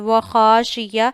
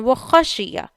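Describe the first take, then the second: First: The first vowel is stretched out long. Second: The first vowel is kept short. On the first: The speaker calls it wrong. "ऐसे नहीं पढ़ना" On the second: The speaker calls it right. "ये जबर जेर हैं तो इन्हें खींचना नहीं है"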